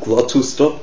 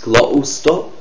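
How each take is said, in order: First: The T is pronounced as a clear T. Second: The T is replaced by a glottal stop.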